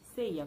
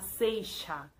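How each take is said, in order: First: The middle consonant is a 'y'-like sound. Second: The middle consonant is a 'sh'-like sound. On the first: "uma pessoa da Venezuela, ia falar ... como se tuviera uma I" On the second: "na Argentina, eles iriam falar seixa"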